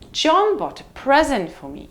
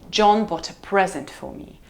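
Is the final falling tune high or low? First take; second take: high; low. First: The voice falls from a high pitch. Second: The voice falls from a low pitch. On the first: "or high fall" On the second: "either low fall"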